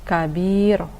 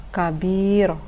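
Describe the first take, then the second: No difference in how they are said.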